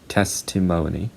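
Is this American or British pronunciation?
American. It has two stressed syllables. "Americans say testimony"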